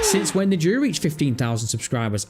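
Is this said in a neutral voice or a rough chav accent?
neutral. It is read out in a plain neutral voice.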